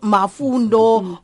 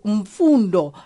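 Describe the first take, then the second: First: The name starts with 'Ma', with a vowel added after the 'M'. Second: The name starts with 'M' joined straight onto 'fundo' with no vowel. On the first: This is a common mistaken form of the name. The speaker calls it wrong. "not Mafundo" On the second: This is the correct form of the name. The speaker calls it right. "my name is Mfundo"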